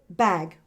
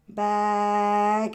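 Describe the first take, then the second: First: The word is said quickly. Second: The word is stretched out slowly.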